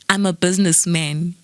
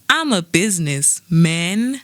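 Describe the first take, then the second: First: Businessman is said smoothly as one word. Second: A pause separates business from man. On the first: The speaker is a man who does business. The speaker calls it wrong. "you don't say" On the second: The speaker is the business itself. The speaker calls it right. "You are the business"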